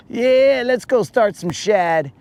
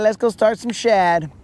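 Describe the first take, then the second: First: Higher mock voice of a sleepy buddy; lightly voiced friend, teasing him; imitating Moon. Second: Higher, lightly mocking buddy voice; imitating Moon again. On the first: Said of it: "he'll be like". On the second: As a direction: tease him with a raised voice. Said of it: "So he's all like".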